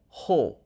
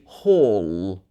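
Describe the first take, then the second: First: The word ends without any L sound. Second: The word ends with a long held L. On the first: The speaker calls it wrong. "A lot of people would say ho" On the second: The speaker calls it right. "but it should be hall"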